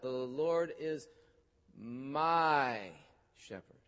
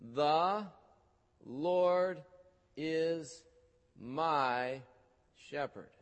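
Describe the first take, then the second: First: The word 'my' is clearly stressed. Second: The word 'my' gets no special stress.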